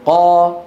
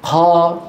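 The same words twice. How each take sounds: First: The q sound is firm and voiced, without breath. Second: The q sound is breathy, with air escaping. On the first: The speaker calls it right. "هذا يصح" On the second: The speaker calls it wrong. "همسوها، هذا ما يصح"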